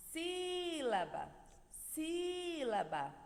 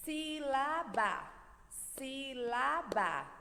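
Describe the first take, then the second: First: SÍlaba with a long, high first syllable; Sílaba sung out on a held SÍ, then falling; calling the word. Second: SÍ-LA-BA slowly, each syllable on its own beat; Sílaba broken into three even, slow beats; split into syllables. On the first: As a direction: call out Sílaba from afar, stretching the SÍ. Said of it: "como se eu estivesse chamando a sílaba". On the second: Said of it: "Separando as sílabas, batendo palminhas". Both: Shown as a demonstration.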